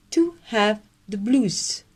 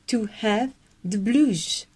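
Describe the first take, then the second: First: Slow, nose-up British accent; posh English accent. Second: Slow British repeat; posh English accent. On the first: Teacher showing members the British accent. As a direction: lift the upper lip and speak like a Brit, slowly. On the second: Teacher repeating for members in British accent. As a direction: say it again slowly, teeth showing, very British. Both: Shown as a demonstration. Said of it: "parler british et avoir le super accent".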